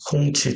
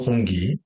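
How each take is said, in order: First: The second syllable starts with a ch sound. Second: The second syllable starts with a g sound. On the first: This is the Chinese reading of the name. "중국 발음은 홍치가 됩니다" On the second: This is the Korean reading of the name. "우리 발음으로 홍기"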